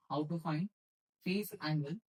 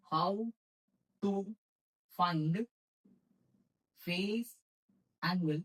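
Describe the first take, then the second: First: Said in the usual way. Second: Long pause after each word; word-by-word dictation. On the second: Shown as a demonstration. Teacher giving students a heading to write, word-by-word dictation. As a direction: dictate it slowly, one word at a time.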